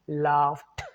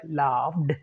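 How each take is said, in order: First: The word ends with a t sound. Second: The word ends with a d sound. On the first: The speaker calls it right. "not d sound. It's t sound" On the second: The speaker calls it wrong. "Even though it sounds like laughed"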